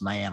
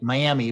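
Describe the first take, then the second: First: The name is said in the local way. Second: The name is said as it is spelled. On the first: "but it's pronounced Miami" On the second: "It's spelled like Miami"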